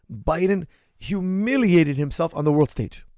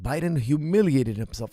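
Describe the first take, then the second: First: HUMILIATED drawn out, higher and punched; slow, emphatic hit on "humiliated"; emphatic stress. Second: Said in the usual way. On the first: Real, not acted. Host gives viewers his verdict on Biden, emphatic and drawn out.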